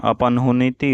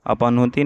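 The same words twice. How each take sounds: First: अपनहुनिति ending in "huniti"; added ni syllable. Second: अपनहुति ending in "huti"; missing syllable. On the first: Teacher giving her form, अपनहुनिति with extra ni. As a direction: insert ni in अपनहुनिति. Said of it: "अपनहुनिति होता है". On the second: Teacher showing the mistake, अपनहुति with short ending. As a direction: say अपनहुति without ni. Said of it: "अपनहुति नहीं होता". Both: Shown as a demonstration.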